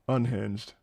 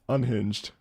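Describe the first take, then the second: Both takes have the same delivery.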